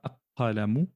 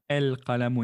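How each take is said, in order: First: The L of the article is dropped entirely. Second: The L of the article is clearly pronounced. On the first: The speaker calls it wrong. "on ne dit pas aqalamu" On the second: The speaker calls it right. "On prononce bien el-qalamu"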